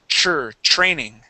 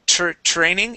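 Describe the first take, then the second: First: The word begins with a CH-R sound. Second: The word begins with a plain T-R sound. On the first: The speaker calls it right. "it is chur training" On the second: The speaker calls it wrong. "instead of tr training"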